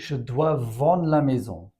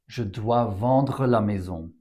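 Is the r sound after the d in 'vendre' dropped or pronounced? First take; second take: dropped; pronounced. First: The r sound after the d is dropped. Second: The r sound after the d is fully pronounced.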